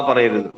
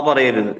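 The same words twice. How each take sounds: No difference in how they are said.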